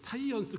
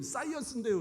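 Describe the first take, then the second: First: It starts with a plain, lax s sound. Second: It starts with a tense, doubled s sound. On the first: The speaker calls it wrong. "이 쌍시옷 발음을 못 하더라고요" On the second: The speaker calls it right. "선생님 사이언스인데요"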